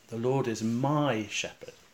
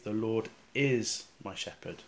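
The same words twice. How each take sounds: First: The stress is on the word my. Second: The stress is on the word is. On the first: The Lord is the shepherd of me personally. "place the emphasis on the word my" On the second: The Lord truly is the shepherd now. "try emphasising the word is"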